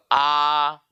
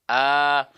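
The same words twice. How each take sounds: First: A with the mouth stretched too wide; exaggerated wide-mouthed A; over-opened A. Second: A with the mouth moderately open; evenly held, moderately open A; medium-open A. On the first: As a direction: open right up on "A". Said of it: "ndak sampai begitu". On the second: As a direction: say "A" without widening it. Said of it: "dengan buka sedang". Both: Shown as a demonstration.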